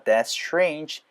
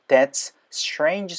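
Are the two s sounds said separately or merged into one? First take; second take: merged; separately. First: The two s sounds merge into one sound. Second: The two s sounds are said separately.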